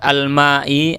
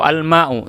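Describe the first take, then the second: First: The word ends in the vowel i. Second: The word ends in the vowel u. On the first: "Jangan dibuat al-ma'i atau al-ma'u, salah" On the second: "Jangan dibuat al-ma'i atau al-ma'u, salah"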